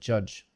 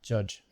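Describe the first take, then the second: First: The word stops cleanly on the j sound. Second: The word stops cleanly on the j sound.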